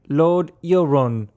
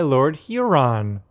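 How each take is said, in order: First: It is said in a British accent. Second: It is said in an American accent.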